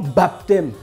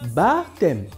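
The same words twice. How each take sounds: First: The word is said with a P sound. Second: The word is said without a P sound. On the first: The speaker calls it wrong. "et non baptême" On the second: The speaker calls it right. "ça se dit baptême"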